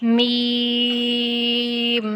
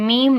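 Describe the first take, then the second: First: میم with a long pure "ee", closed on m; drawn-out, clean میم; no n sound. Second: میم said short and quick; میم without its sustained vowel; too short, wrong meem. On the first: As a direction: hold میم without letting an n creep in. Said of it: "میم میں نون کی آواز نہیں آئے گی". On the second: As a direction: clip the long "ee" of میم. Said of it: "میم نہیں کرنا". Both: Shown as a demonstration.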